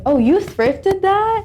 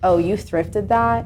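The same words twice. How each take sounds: First: The tone sounds interested and admiring. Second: The tone sounds dismissive and looking down. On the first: Buying secondhand is seen as cool and desirable. "it's like" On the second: Buying secondhand is seen as something to look down on. "instead of people going like"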